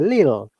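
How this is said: The t sound is dropped. "in Cockney accent, they don't pronounce T"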